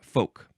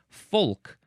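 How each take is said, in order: First: The word is said without an L sound. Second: The word is said with an L sound. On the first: "it only has one pronunciation" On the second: "with the L in there"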